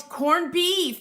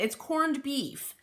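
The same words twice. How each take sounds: First: High, loud eureka on "corned beef"; excited recall. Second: Slow, stress on "corned" in "It's corned beef"; firm confirmation. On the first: Remembering the dish's name for viewers, excited. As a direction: blurt it out as it comes to mind. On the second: Confirming the dish's name to viewers, stressing "corned". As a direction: settle it, leaning on "corned". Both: Real, not acted. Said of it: "that's it".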